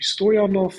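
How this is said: The name is said the German way. "German and like European countries, it would be"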